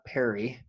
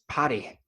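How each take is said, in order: First: The name is said with a non-Welsh pronunciation. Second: The name is said with a Welsh pronunciation. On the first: The speaker calls it wrong. "not Perry" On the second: The speaker calls it right. "as the Welsh say, it's Paddy"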